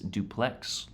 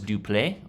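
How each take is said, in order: First: It sounds like the English housing word. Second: It does not sound like the English housing word. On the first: The speaker calls it right. "it actually it is duplex, like the uh, housing structure here in America" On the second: The speaker calls it wrong. "I thought it was duple"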